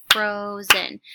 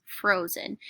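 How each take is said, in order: First: Frozen split into two beats, FRO-zen, louder; clapped syllables. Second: Said in the usual way. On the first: Shown as a demonstration. Teacher clapping syllables for students, louder split. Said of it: "now I'm going to clap the syllables". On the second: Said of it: "So I'm reading that word".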